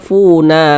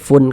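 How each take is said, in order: First: The word ends with an added vowel sound. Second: The word ends on a silent n sound. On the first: The speaker calls it wrong. "jangan dibaca funa" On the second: The speaker calls it right. "tapi dibaca fun"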